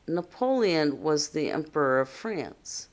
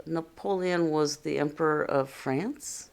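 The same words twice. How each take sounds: First: "France" falls to a close; telling tone, "France" settles down; statement with period. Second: "France" rising sharply at the end; questioning read, "France" turned upward; question intonation. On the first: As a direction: read it as a plain statement, dropping on "France". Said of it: "It has a period". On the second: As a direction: ask it, lifting "France" into a question. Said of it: "that's how we read a question". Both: Shown as a demonstration.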